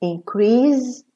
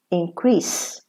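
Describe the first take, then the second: First: "Increase" ending in a buzzed Z, in-CREEZ; voiced Z ending. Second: "increase" ending in a voiceless hiss, in-CREES. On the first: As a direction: say "Increase" as a verb, final Z. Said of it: "the S is pronounced za". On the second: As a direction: say "increase" as a noun, final S. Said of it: "the S is pronounced sa". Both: Shown as a demonstration.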